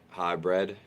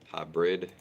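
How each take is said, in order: No difference in how they are said.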